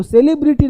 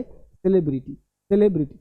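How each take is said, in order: First: "सेलिब्रिटी" with a long say-lee start; wrong pronunciation. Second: "सेलिब्रिटी" as quick suh-LEB-ri-tee; short vowels, beat on LEB in "सेलिब्रिटी"; correct pronunciation. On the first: Teacher tells students not to say this, wrong pronunciation. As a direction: drag "सेलिब्रिटी" into SAY-lee-bri-tee. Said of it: "सेलिब्रिटी नहीं बोलना है". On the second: Teacher gives students the right form, correct pronunciation. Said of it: "तो सेलिब्रिटी नहीं बोलना है". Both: Shown as a demonstration.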